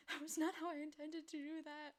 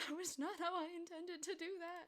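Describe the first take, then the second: First: Higher, louder flustered exclaim; startled, not stressed. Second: Higher, louder, half-crying; wailing, hammed-up despair; mock crying. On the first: Real, not acted. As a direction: blurt it out in dismay. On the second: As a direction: repeat it as a fake sob.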